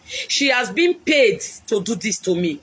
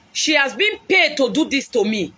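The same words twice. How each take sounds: First: Said in the usual way. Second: Shouted accusation. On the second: Real, not acted. Woman on live stream shouting that her rival was paid.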